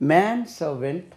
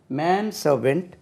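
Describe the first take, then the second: No difference in how they are said.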